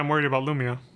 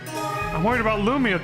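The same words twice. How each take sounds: First: It is said in a calm, plain way. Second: It is said in an angry, tantrum-like way.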